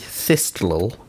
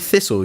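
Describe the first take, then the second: First: The t sound in the middle is pronounced. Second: The t sound in the middle is silent. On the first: The speaker calls it wrong. "You wouldn't say thistle" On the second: The speaker calls it right. "You say thistle"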